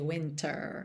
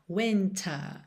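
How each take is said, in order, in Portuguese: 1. O R final é enrolado. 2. O R final é mudo.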